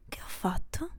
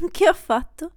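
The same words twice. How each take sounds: First: Che ho fatto? whispered with a rising end; hushed, stunned whisper. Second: A loud laughing Che ho fatto?, pitch up; Che ho fatto? laughed out loud, higher; giggling disbelief. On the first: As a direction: breathe Che ho fatto? as a soft whispered question. Repeats the question, whispered. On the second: Repeats the question, laughing. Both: Acted.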